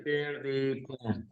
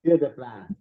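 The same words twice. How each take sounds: First: Faint, dragged-out glitchy audio; slow smeared words over bad line; audio cutting out. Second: Said again, clear and firm; repeated clearly. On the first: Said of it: "Your audio is cutting out". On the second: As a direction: repeat it so they hear. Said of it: "Can you hear me?". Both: Real, not acted.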